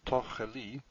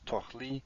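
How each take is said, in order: First: The word is said with three syllables. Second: The word is said with two syllables. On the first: The speaker calls it right. "Three syllables" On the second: The speaker calls it wrong. "two syllables"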